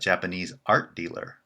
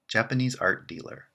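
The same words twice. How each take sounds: First: The main stress falls on 'art'. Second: The main stress falls on 'Japanese'. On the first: The dealer is a Japanese person who trades art. "someone who is Japanese and whose profession is to buy and sell art" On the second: The dealer trades in art from Japan. "someone who buys and sells art from Japan"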